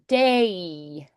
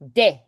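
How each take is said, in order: First: The vowel glides like English ay. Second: The vowel stays one pure sound. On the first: "Or we'd go day, a" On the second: "They just go de"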